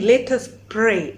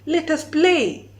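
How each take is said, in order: First: The word is said with a clear R sound. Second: The R is replaced with an L sound. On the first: "if they're saying, let us pray, as in pray to God" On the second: "they will say, let us play"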